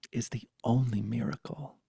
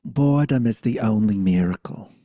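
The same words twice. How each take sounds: First: Said in the usual way. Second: Loud Brooklyn grandma pronouncement; Brooklyn accent. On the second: Retold or imitated. Grandmother teaching a child, loud Brooklyn accent. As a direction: declare it firmly in a Brooklyn accent. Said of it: "'cause she had a Brooklyn accent".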